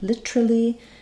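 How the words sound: It is said in a British accent. "British English might be more literally"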